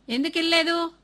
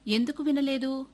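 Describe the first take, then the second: First: ఎందుకు వినలేదు? barked loud and high; the father snaps ఎందుకు వినలేదు? at his son; father angrily demanding why the boy did not listen; angry demand. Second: Said in the usual way. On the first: Acted. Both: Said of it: "తండ్రి అడిగాడు".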